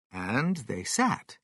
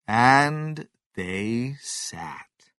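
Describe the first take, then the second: First: Said in the usual way. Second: Very slow and long; slow, drawn-out. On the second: A narrator's reading. Narrator reading the waiting, slowed right down. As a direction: stretch it out to show the endless wait.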